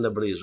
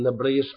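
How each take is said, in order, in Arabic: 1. الكلمة بتنتهي بصوت j. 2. الكلمة بتنتهي بصوت sh. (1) "أنا بقول نبريج ... بحرف الجيم" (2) "أنت بتقول نبريش"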